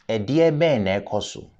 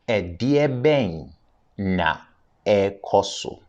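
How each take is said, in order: First: It is said at normal speed. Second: It is said slowly.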